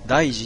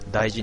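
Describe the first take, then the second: First: It has the pitch accent of daiji meaning serious. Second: It has the pitch accent of daiji meaning important. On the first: Something becomes a grave matter. "大事に至る" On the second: Something is precious or valued. "大事にしますよじゃなくて"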